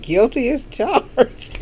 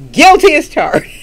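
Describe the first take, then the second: First: Said in the usual way. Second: Higher and louder, owning it proudly; a bold happy confession; emphatic admission. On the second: Real, not acted. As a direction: declare it loud like a proud confession.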